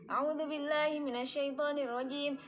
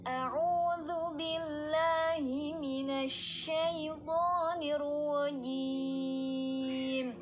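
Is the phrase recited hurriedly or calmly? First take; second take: hurriedly; calmly. First: It is recited quickly and hurriedly. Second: It is recited slowly, then stops. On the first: The reciter is nervous and rushing. The speaker calls it wrong. "jangan kayak gitu" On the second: The reciter is calm and careful. The speaker calls it right.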